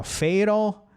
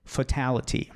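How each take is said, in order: First: "fatal" as "FAY-rol", raised pitch; flapped T. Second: "fatality" with full T on TAL; stressed hard T. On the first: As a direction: stress FA in "fatal", tap the T. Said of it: "o som forte de fatal tá". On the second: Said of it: "Aqui o som forte tá no T". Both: Shown as a demonstration.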